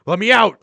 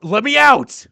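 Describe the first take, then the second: First: High, loud panicked scream. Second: Even higher, louder desperate scream. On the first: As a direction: scream to be let out. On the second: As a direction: push the scream to breaking point. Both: Acted.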